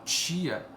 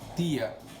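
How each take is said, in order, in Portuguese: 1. A palavra começa com o som de ch chiado. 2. A palavra começa com o som de t simples. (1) "tch, a língua recua" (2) "a língua vem aqui pro dente"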